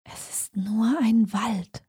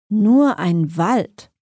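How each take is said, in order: First: Slow, hushed murmur to herself; quietly muttered under the breath; soft murmur. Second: Slow, mocking echo as a question; a taunting question from the shadows; scornful. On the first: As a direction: murmur it softly, drawn out, as self-reassurance. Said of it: "murmelte sie leise". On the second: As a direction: draw it out with understated scorn. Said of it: "leise und voller Hohn". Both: A narrator's reading.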